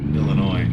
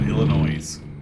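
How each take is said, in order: First: The final S is silent. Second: The final S is pronounced. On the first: The speaker calls it right. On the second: The speaker calls it wrong.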